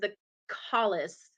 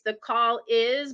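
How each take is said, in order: First: The name is run together as one word. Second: The name is said as separate words. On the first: "everyone says the callus like that's one word" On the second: "I always feel like it's the call is"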